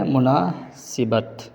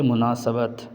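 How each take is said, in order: First: مناسبت with zer on the seen, "munasibat"; the wrong مناسبت, "si" in the middle; wrong pronunciation. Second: مناسبت with zabar on the seen, "munasabat"; the right مناسبت, "sa" in the middle; correct pronunciation. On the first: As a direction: say مناسبت as "mu-naa-si-bat". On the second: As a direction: say مناسبت as "mu-naa-sa-bat". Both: Shown as a demonstration. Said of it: "سین پر زبر".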